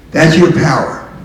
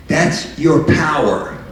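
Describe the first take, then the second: First: Louder "That's your power," hitting "your" hard; ringing, louder restatement on "your"; louder repeat. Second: Slow, weighty "That's your power," with "your" stressed; deliberate stress on "your"; slow emphasis. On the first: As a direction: push "your" harder and louder. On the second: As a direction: lean on "your" and take it slowly. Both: Shown as a demonstration.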